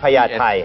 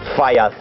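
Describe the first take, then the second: First: It begins with a P sound, Thai style. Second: It begins with an F sound, foreign style. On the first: The speaker calls it right. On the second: The speaker calls it wrong.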